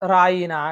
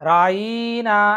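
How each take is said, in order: First: The middle vowel is said short. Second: The middle vowel is stretched long. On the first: Please pay attention to us. "అంతకుముందు ఏం పదం వాడేవారంటే రాయినా అని వాడేవారు" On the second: Oh our herdsman, a mocking address. "దాన్ని రాయీనా అని వా లాగేవాళ్ళండి"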